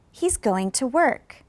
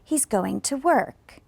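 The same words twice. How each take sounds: First: Slow model sentence with "work" rising slightly then falling; teacher says "He's going to work." slowly, voice dropping on "work"; falling intonation on work. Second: Slow careful model with pitch sliding down on "work"; falling intonation on work. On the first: Teacher to students, slow demo falling on work. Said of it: "Listen to me pronounce it again". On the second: Teacher repeating model for students, falling on work. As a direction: let "work" in "He's going to work." fall at the end, slowly. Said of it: "was going up or was going down". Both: Shown as a demonstration.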